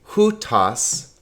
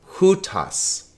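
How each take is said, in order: First: The stress is on the first syllable. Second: The stress is on the first syllable.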